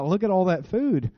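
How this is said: It sounds gleeful, said with a smile. The speaker can't wait to eat it. "some of you say it with a big smile"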